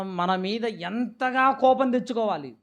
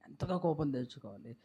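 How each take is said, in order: First: Said in the usual way. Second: Hushed repeat. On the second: Real, not acted. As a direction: say ఎంతగా కోపం తెచ్చుకోవాలి low and much softer. (ఎంతగా కోపం తెచ్చుకోవాలి అని లోతుగా, మెల్లగా)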